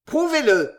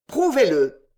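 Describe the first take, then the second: First: Loud, higher challenge; heated demand. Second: Loud insistent repeat of the demand; heated repeat. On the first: Winkle challenging the editor, heated loud demand. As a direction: fling the challenge back hotly. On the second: Winkle pressing the editor, loud insistent demand. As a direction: hammer the demand home. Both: A narrator's reading. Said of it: "s'écria Monsieur Winkle avec chaleur".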